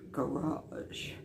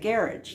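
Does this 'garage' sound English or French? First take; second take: French; English. First: The word is pronounced in a French-sounding way. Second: The word is pronounced in a plain English way. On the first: "which again sort of sounds French to me" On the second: "I say garage now"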